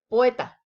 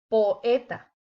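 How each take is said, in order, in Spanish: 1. Las dos vocales se funden en una sola sílaba. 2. Las dos vocales caen en sílabas separadas. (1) "Sería incorrecto decir" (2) "La manera correcta de decirlo es"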